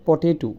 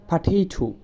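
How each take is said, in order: First: "পটেটো" said poteto; common mispronunciation. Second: "পাটেটো" starting with a short pa; correct pronunciation. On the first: The teacher shows the common poteto. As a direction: say "পটেটো" with an o at the start. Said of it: "আমরা বলি". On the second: The teacher models pateto. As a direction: open with pa in "পাটেটো". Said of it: "এটা হচ্ছে". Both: Shown as a demonstration.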